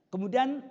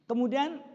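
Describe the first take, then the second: No difference in how they are said.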